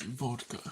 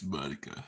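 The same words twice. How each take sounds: First: "vodka" with a clear v and t, "votka"; proper pronunciation. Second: "vodka" with a b sound and no clear t; slurred pronunciation. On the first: Correcting how "vodka" is said. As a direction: say "vodka" crisply with v and t. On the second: Trying out how people say "vodka". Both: Shown as a demonstration. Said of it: "Did they say vodka?".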